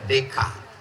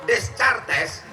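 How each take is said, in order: First: Silent letters are dropped, sounding like day-cart. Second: Every letter is pronounced, including the final s. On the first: The speaker calls it right. "itu cara bacanya Descartes" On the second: The speaker calls it wrong. "Jangan nanti kalian bilang menurut Descartes"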